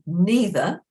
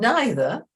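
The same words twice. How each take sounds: First: The first vowel sounds like "ee". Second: The first vowel sounds like "eye". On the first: "it's the E, the single letter E that's um, giving the sound" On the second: "it's the I that's giving the sound"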